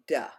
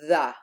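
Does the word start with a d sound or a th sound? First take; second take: d sound; th sound. First: It starts with a hard d sound. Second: It starts with a voiced th sound. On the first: The speaker calls it wrong. "We don't want to say duh" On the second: The speaker calls it right. "the T H is voiced"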